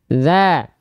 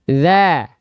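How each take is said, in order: The two takes are said the same way.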